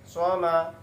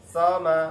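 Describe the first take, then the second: Both takes have the same delivery.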